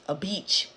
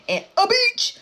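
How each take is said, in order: First: Said in the usual way. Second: Sudden high, loud outburst; odd shouted emphasis. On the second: Real, not acted. Storyteller repeats backyard detail to viewers, shouting high. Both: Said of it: "I don't know why I said it like that".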